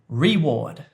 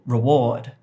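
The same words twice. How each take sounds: First: The stress is on the first syllable. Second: The stress is on the second syllable. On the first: The speaker calls it wrong. "So I said reward" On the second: The speaker calls it right. "the stress is on the second syllable"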